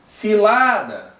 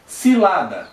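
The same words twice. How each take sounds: First: Slow, higher "Cilada" with a long LA; drawn-out demonstration call, middle syllable strongest. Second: Said in the usual way. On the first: Shown as a demonstration. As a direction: call "Cilada" as if summoning it, stretching LA. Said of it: "grita como se tivesse chamando essa". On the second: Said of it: "também é mais forte o lá".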